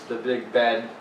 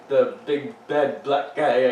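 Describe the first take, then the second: First: Said in the usual way. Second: Slow, each word placed with care; careful slow wording. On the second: Real, not acted. Slowed careful rephrasing.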